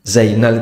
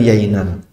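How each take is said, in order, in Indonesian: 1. Nama itu diawali dengan bunyi z. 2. Nama itu diawali dengan bunyi y. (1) "Za itu jadi ya" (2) "Za itu jadi ya"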